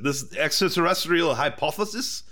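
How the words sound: It is read in an attempted French accent. "I can't do a good French accent"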